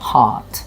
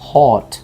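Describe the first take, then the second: First: The vowel is opened toward an ah sound. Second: The vowel sounds like a rounded o. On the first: The speaker calls it right. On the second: The speaker calls it wrong.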